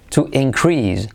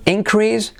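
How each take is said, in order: First: To inCREASE, CREASE carries the weight; stress on second syllable. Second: INcrease, IN pitched high; stress on first syllable. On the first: (increase con acento en la segunda sílaba) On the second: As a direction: punch IN at the start of increase. (increase con la primera sílaba acentuada y aguda) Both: Shown as a demonstration. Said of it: "si acentuamos la primera sílaba o la segunda".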